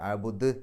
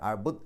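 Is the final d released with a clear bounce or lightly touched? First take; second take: bounced; touched. First: The final d is released with a clear bounce. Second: The final d is only lightly touched. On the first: The speaker calls it right. "ദ് എന്നുള്ളത് വ്യക്തമായിട്ട് പുറത്തേക്ക് കേൾക്കണം" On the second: The speaker calls it wrong. "അഅ്ബുദ് എന്ന് പറഞ്ഞാൽ പോരാ"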